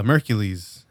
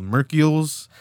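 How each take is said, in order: First: "Mercules" said MER-kyuh-leez, full ending; correct name. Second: "Mercules" said as MER-kyuh-lz, vowel dropped in the middle; wrong first reading. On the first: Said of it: "But it's, uh". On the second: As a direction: read "Mercules" as mer-kyulz, squashed. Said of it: "I thought it was called Mercules". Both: Shown as a demonstration.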